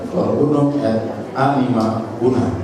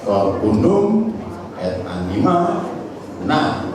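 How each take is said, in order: First: The two-syllable words are stressed on the first syllable. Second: The two-syllable words are stressed on the last syllable. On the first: The speaker calls it right. "itu sudah saklek, sudah mati begitu" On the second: The speaker calls it wrong. "tidak bisa diubah menjadi"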